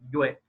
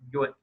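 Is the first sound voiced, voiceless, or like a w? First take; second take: w-like; w-like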